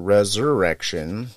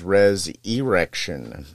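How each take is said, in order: First: The word is pronounced in the ordinary way. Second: The ending is pronounced like the word 'erection'. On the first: It is the plain word. "as opposed to Resurrection" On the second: It makes a sexual pun in the title. "like an erection"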